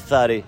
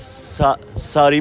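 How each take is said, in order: First: The first sound is a th-like tongue-tip sound. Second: The first sound is a plain s. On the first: This is how locals say it. "ما میگیم ثاری. ثاری ما رو زبان نوک زبانی صحبت میکنیم" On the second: This is how outsiders say it. "ساری میگی شما"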